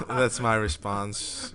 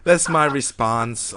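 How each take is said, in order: First: Slow, laughing through the words; laughing repeat. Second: Slow deadpan. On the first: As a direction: chuckle while repeating it. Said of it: "repeat with laugh". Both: Real, not acted.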